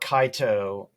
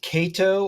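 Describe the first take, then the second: First: The first vowel sounds like 'eye'. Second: The first vowel sounds like 'day'. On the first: "is it Kato or Kaito" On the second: "is it Kato or Kaito"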